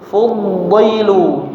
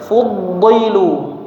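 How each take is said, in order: Both takes have the same delivery.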